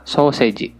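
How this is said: It is pronounced with Japanese katakana sounds. "jawabannya adalah"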